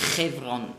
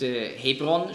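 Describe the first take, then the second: First: The name begins with a harsh ch sound. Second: The name begins with a soft h sound. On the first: This is how the name is said in Hebrew. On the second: This is the usual German form of the name.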